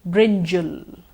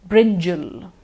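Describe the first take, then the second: Both takes have the same delivery.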